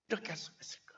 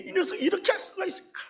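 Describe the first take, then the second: First: Softer, whispered echo of the outrage; whispered, bitter disbelief; hushed repeat. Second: Much higher, fast outraged cry; hot, rushing protest at the betrayal; indignant outcry. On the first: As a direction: mutter it to yourself, stunned. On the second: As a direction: fling the question out in disbelief. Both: Retold or imitated.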